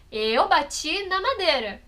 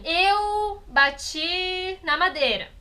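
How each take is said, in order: First: "Eu bati na madeira" slowed, with the stress on "na"; order shown by stress. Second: "eu bati na madeira" said very slowly, each word separate, "eu" stressed; slow word order demo. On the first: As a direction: point out the word order while slowing on "na". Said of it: "A ordem tá ali". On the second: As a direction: lay out the sentence slowly, word by word. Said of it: "se eu falar assim". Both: Shown as a demonstration.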